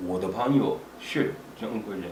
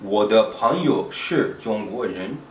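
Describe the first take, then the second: First: Flowing everyday pace, syllables run together; natural rhythm. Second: Slow, deliberate learner's take, each syllable placed; slow and careful. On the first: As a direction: say it the way it is said in real speech. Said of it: "once you get the natural way of saying it". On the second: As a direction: say each syllable slowly and clearly. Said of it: "it's good to say it slowly a few times". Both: Shown as a demonstration.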